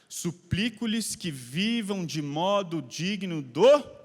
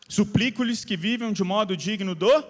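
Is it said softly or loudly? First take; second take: softly; loudly. First: It is said at a normal, softer volume. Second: It is said louder and more forcefully.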